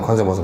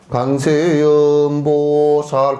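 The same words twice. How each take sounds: First: It is said very fast. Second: It is said very slowly.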